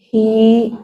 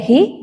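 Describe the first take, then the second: First: The vowel is held long. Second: The vowel is cut short. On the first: The speaker calls it right. "tapi hi" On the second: The speaker calls it wrong. "Tidak hi, tidak pendek"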